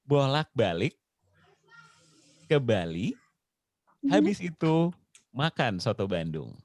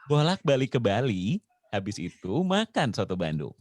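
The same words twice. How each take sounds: First: The sentence is spoken at a slower pace. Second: The sentence is spoken at a quicker pace.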